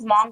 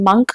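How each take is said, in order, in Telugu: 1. ఆ అచ్చు తెరిచిన 'ah' శబ్దం. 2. ఆ అచ్చు చిన్న 'uh' శబ్దం. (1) "చాలా మంది దీన్ని మాంక్ మాంక్ అని చెప్పేసి ప్రొనౌన్స్ చేస్తూ ఉంటారు. This is very incorrect" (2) "it should be pronounced అస్ మంక్ only"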